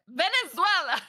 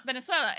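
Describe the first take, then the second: First: Venezuela said emphatically, pitched up, every syllable clear; exasperated, hammered-out Venezuela; emphatic correction. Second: Said in the usual way. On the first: Retold or imitated. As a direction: correct the mishearing with a punched Venezuela. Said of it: "Oh, Minnesota?". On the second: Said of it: "Oh, where are you from?".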